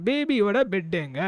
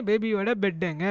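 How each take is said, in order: Both takes have the same delivery.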